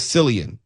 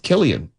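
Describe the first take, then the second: First: The name begins with an S sound. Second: The name begins with a K sound. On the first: The speaker calls it wrong. "I've been pronouncing it wrong forever" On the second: The speaker calls it right. "I guess it's Killian with a C"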